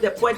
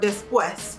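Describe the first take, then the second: First: The S sound in the word is dropped. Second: The S sound in the word is clearly pronounced. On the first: It reflects a Puerto Rican accent. "they don't pronounce the S" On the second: It is read as written. "that's how I would pronounce it"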